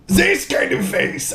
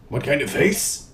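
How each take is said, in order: First: Much higher, slow, beaming exclamation; hammed-up joyful Reinhardt; happy Reinhardt face. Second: Said in the usual way. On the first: Shown as a demonstration. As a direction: show off the grinning hero face. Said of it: "You have to be happy".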